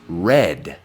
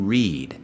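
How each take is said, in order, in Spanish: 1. La vocal suena como la palabra 'red'. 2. La vocal no suena como 'red'. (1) "Red, como si fuera el color" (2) "En inglés decimos read"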